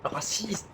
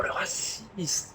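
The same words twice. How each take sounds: First: Said in the usual way. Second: Whispered. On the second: Acted. Mock whispered accusation.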